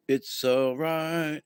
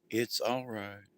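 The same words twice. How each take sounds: First: Drawn-out, steady and soothing; slow it right down to calm them; slow calm reassurance. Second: Softly soothing a panicked friend, lower and softer; calming reassurance. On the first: Steadying a chaotic friend, slow and reassuring. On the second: Calming a panicking relative over the holidays, soft and soothing. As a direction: hush them gently, it's all right. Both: Retold or imitated. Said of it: "And you go".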